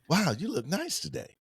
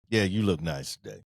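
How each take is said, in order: First: It is said in an excited, enthusiastic tone. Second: It is said in a flat, unenthusiastic tone.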